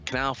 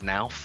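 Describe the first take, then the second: First: The word starts with a hard K sound. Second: The word starts with an N, K silent. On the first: The speaker calls it right. "it's actually a hard K" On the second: The speaker calls it wrong. "a lot of people mispronounce our uh, our company uh, and say it's Nauf"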